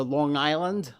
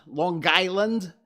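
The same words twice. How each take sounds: First: Said in the usual way. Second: Loud, slow, higher "Lawn Guyland" local accent; Long Island accent. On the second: Shown as a demonstration. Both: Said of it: "as they say".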